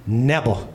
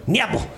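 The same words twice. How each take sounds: First: "Never" said as nebber, v like b; imitating a little girl's "Never" with a b sound; Izzy's never. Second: "Never" again as nebber, b for v, lifted at the end; mock-childish "Never" with a b; Izzy's never. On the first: Dad mimics his daughter refusing peas: nebber. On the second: Dad repeats his daughter's stubborn nebber. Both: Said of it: "That's how Izzy says never".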